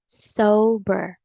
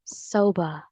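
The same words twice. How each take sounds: First: First sober as SOH-ber with R; American pronunciation. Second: Sober ending in "buh", R dropped; British pronunciation. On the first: Teacher repeats both options, American pronunciation first. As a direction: say sober slowly, final R sounded. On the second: Teacher repeats both options, British pronunciation second. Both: Shown as a demonstration. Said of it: "the British English is sober".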